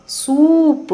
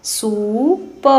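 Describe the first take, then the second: First: सूप with the ऊ held long and much higher. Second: सूप said very slowly; slow spelling-out. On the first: Teacher repeating सूप for pupils, long and high. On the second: Teacher slowly sounding out सूप. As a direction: draw सूप out slowly first. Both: Shown as a demonstration. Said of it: "लंबे समय तक और ऊंचे स्वर में पढ़ा".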